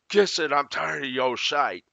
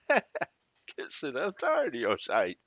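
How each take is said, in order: First: It is said in a harsh, hostile tone. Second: It is said in a light, playful tone. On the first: The speaker is genuinely angry. "if I say it like this, ... That's kind of in line with what was up on the screen" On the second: The speaker is only joking. "what if the person on the other side of the screen is really saying"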